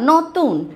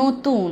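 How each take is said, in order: First: The first vowel is an open 'aw'. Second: The first vowel is a closed 'oh'.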